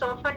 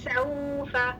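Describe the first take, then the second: First: The first vowel is a single plain o sound. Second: The first vowel glides softly from a to u. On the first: The speaker calls it wrong. "सोफा नहीं है" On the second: The speaker calls it right. "वह सऊफा"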